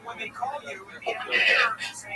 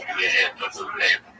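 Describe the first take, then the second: First: Put-on the godfather instructs the boy, slow and secretive; hushed godfather. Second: Said in the usual way. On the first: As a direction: draw out "Open your hands" like a mobster passing something under the table. Godfather quoted at the steakhouse.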